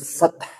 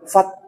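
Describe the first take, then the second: First: The final h has a strong audible breath. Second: The final h has little audible breath. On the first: The speaker calls it right. "harus fath" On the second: The speaker calls it wrong. "jangan fath. Kalau fath ini ini kurang sempurna"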